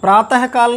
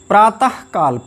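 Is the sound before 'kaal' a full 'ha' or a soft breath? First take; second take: full ha; soft breath. First: A full 'ha' sound comes before 'kaal'. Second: A soft breathy release comes before 'kaal'. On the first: The speaker calls it wrong. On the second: The speaker calls it right.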